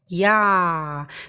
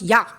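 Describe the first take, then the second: First: The sound is held and continues for a while. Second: The sound is cut off abruptly. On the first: The speaker calls it right. "This way the letter is getting clear" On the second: The speaker calls it wrong. "It's not yeah"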